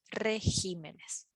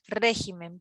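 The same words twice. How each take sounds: First: "regímenes" with the beat on "gí"; teacher demonstrates plural "regímenes", stressed on "gí"; stress shifted to GÍ. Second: "régimen" with the beat on "ré"; teacher demonstrates singular "régimen", stressed on "ré". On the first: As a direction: lean on the second syllable, re-GÍ-me-nes, in "regímenes". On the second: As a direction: hit the first syllable, RÉ-gi-men, in "régimen". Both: Shown as a demonstration. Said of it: "tres las palabras que cambian".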